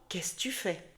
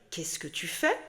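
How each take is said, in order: First: Some sounds are dropped in casual speech. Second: Every syllable is pronounced fully and clearly. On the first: This is how people actually say it. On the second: This is how it is written. "Tu vas lire"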